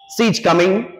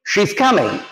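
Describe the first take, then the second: First: The first word begins with a plain s sound. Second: The first word begins with an sh sound. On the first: The speaker calls it wrong. "आमतौर पर हम लोग क्या बोलते हैं, सी ... बिल्कुल गलत है" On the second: The speaker calls it right. "क्या बोलेंगे, शी"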